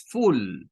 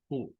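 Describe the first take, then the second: First: «full» con U plena y alargada; U fuerte errónea. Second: «full» con vocal reducida, mucho más suave y grave. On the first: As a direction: exagera la U de «full», fuerte y larga. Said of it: "No es full". («full» mal dicho, con vocal llena) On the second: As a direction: di «full» corto y suave, como un schwa. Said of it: "es más suave". («full» átono, con schwa y voz baja) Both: Shown as a demonstration.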